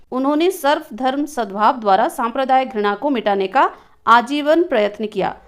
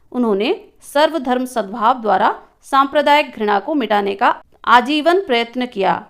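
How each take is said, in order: No difference in how they are said.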